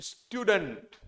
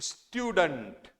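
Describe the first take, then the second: The two takes are said the same way.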